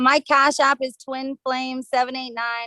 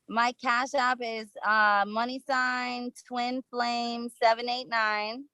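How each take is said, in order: First: It is said at normal speed. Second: It is said slowly and carefully.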